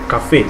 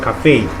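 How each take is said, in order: First: The A vowel is short and sharp. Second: The A vowel is longer and glides. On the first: This is the French pronunciation. The speaker calls it right. "the A in the French cafe sounds sharper and shorter" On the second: This is the English pronunciation. The speaker calls it wrong.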